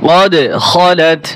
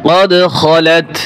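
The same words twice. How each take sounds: Both takes have the same delivery.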